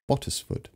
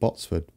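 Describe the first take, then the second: First: The name is said with three syllables. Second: The name is said with two syllables. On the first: The speaker calls it right. "It's Bottisford" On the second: The speaker calls it wrong. "I kept saying Botsford. It's not"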